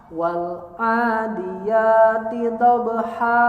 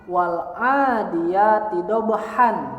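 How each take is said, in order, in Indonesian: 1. Kata terakhir berakhir dengan vokal panjang. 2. Kata terakhir berakhir dengan bunyi n. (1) "pada saat kita membaca di akhir kalimat" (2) "Secara penulisan"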